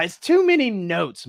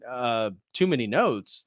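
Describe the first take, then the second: First: Higher, light mock emperor voice on "too many notes"; lightly voiced emperor pushing "too"; emperor's complaint. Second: Slow, lower echo of "too many notes"; lightly voiced Mozart, taken aback and slow; offended Mozart. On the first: The emperor telling Mozart his opera has too many notes, higher mock voice. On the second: Mozart repeating the emperor's words back, slow and offended. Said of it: "He's like".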